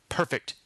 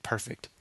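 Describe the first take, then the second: First: Said in the usual way. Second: A low menacing growl. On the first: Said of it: "growled as he said". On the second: A narrator's reading. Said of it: "Mister Tellevue growled".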